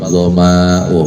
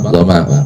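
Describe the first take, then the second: First: The vowel in the word is drawn out long. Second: The vowel in the word is kept short. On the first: The speaker calls it wrong. "ada orang membaca azhabat dhama'u gitu" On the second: The speaker calls it right. "dibaca qasar pendek"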